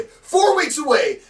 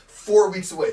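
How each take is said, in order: First: High, slow, booming repeat; shouted hype. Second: Loud hype, held back from full shout; emphatic announcement. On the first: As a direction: stretch it out in a high-pitched shout. Hyping the show, repeated bigger. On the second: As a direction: announce it firmly and loudly. Hyping the show, first take. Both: Acted.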